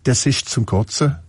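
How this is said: It is said in a Swabian dialect accent.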